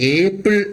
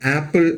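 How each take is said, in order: First: The first vowel sounds like the letter name 'ay'. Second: The first vowel is a short open 'a' sound. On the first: The speaker calls it wrong. "നമ്മൾ ഏപ്പിൾ എന്നല്ലല്ലോ പറയുന്നത്" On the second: The speaker calls it right. "നമ്മൾ പകരം ആപ്പിൾ എന്നല്ലേ പറയുന്നത്"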